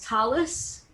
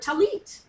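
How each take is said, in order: First: It ends with an s sound. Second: It ends with a t sound.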